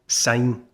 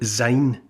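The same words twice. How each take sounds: First: The word begins with an S sound. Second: The word begins with a Z sound. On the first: The speaker calls it right. "It's Auld Lang Syne. Syne is since, so think since, which obviously, you know, starts with an S sound" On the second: The speaker calls it wrong. "don't ever call it Auld Lang Syne, sounding it like a Z"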